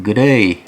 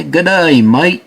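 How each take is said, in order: First: Put-on half-hearted try at a Canadian accent; attempted Canadian accent. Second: Mock Aussie greeting, voice lifted; Australian accent. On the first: Host tries out an accent for the next pair, unsure Canadian accent. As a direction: have a tentative go at a Canadian accent. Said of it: "how do you do a Canadian accent". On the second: Host asks if shoes from Australia say this, Australian accent. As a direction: put on a broad Australian accent. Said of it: "we did our Australian accent".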